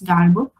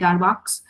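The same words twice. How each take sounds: First: The name is said in a French way. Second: The name is said in an anglicized way. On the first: "the real pronunciation, because he was a French mathematician" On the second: "some people call it Darboux"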